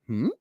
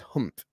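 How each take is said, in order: First: The voice rises at the end, like a question. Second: The voice falls at the end, like a statement.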